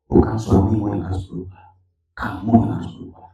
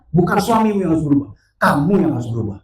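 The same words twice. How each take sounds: First: Voice of God. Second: Loud, forceful repeated answer; voice of God, insistent. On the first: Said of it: "Tuhan bilang begini". (suara Tuhan, rendah dan tenang) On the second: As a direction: drive the verdict home, pitch falling. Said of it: "Tuhan tetap jawab yang sama". (jawaban Tuhan yang lantang dan tegas) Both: Retold or imitated.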